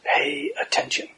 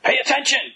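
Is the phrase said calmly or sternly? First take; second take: calmly; sternly. First: It is said plainly and calmly, without scolding. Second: It is said sternly, as a scolding command. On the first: It is a simple invitation to notice. The speaker calls it right. "It's just pay attention" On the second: It is a reprimand to someone not listening. The speaker calls it wrong. "not like your fourth grade teacher said"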